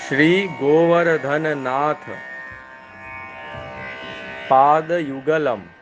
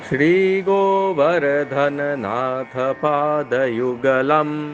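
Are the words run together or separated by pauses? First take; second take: separated; run together. First: Each word is separated by a short pause. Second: The words flow together at normal speed. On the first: The verse is split into its individual words. "इसका पदच्छेद अब आगे सुनिए।" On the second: The verse is recited as it is normally read. "एक बार फिर से सामान्य गति से आप इसको सुन लीजिए।"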